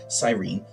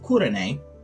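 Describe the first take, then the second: First: The name begins with a soft s sound. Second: The name begins with a hard k sound. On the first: This is the usual modern pronunciation. "what we usually say as" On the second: This is closer to the original pronunciation. "that would be a closer to original pronunciation"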